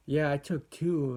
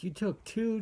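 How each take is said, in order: First: Said in the usual way. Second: High rising disbelieving echo; can't believe she took two; shocked question, pitch jumping up on two; surprised. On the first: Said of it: "and she's like". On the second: Retold or imitated. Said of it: "And I'm like".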